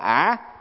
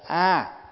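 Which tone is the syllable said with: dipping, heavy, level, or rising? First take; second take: dipping; level. First: The syllable is said with a dipping tone. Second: The syllable is said with a level tone. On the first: The speaker calls it wrong. "không phải là ả" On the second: The speaker calls it right. "Ví dụ như mình niệm Nam Mô A"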